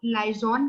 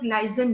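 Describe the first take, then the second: First: लाइजॉन said lie-zon, with a rounded open o in the last syllable; one common pronunciation. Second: लाइजन said lie-zun, with a short neutral last vowel; the other pronunciation. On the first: Teacher showing students one way to say the word, rounded "zon". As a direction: say लाइजॉन with a clear long "aw" vowel at the end. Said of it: "कई लोग लाइजॉन कहते हैं". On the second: Teacher giving students the second version, short reduced "zun". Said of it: "कुछ लोग लाइजन कहते हैं". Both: Shown as a demonstration.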